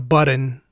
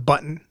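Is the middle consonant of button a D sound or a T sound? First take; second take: D sound; T sound. First: The middle consonant sounds like a D. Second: The middle consonant sounds like a T. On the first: The speaker calls it wrong. "There's no D's in button. So it's not a button" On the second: The speaker calls it right. "It's a button"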